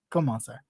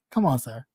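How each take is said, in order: First: Soft breathy whisper of "Come on, sir."; hushed exasperated "Come on, sir.". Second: Said in the usual way. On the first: Real, not acted. Scolding him, repeated.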